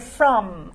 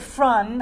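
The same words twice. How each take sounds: First: The word ends with an M sound. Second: The word ends with an N sound. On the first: The speaker calls it right. "I want to hear from" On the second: The speaker calls it wrong. "I don't want to hear from"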